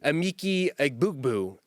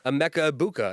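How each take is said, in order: First: The name is said as 'Amiki Egbukbu'. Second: The name is said as 'Emeka Buka'. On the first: The speaker calls it wrong. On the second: The speaker calls it right.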